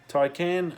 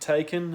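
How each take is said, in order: First: The name does not sound like 'taken'. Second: The name sounds like the word 'taken'. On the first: The speaker calls it right. "that's apparently how it's pronounced" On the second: The speaker calls it wrong. "not taken as it's spelt"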